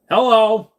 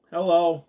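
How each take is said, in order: First: A big, high, loud greeting; loud hello. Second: Said in the usual way. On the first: Real, not acted. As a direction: call out hello to the chat. Greeting a chatter on stream.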